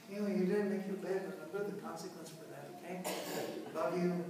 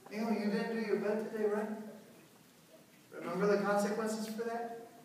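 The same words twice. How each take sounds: First: Softer, quick, even and firm; calm authority. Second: Calm, softer, quick reminder of the rule; no arguing, just a gentle nudge. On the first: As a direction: lay down the rule kindly, then love you. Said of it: "you're gonna be talking like this because you're authority". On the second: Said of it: "You don't have to discuss". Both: Shown as a demonstration.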